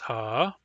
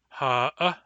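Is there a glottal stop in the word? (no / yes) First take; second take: no; yes. First: The word is said without a glottal stop. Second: The word is said with a glottal stop. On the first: "Remember the particular intonation that the word yes has" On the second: "In Barkly Sound dialects, this word is pronounced with a glottal stop"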